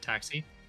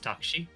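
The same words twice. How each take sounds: First: It is said with an English accent. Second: It is said with a Japanese accent. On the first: "you pronounce it taxi" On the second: "In Japanese, it's taxi"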